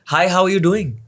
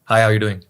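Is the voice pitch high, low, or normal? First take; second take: high; low. First: It is said at a high pitch. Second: It is said at a low pitch. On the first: "so it's हाय" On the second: "low"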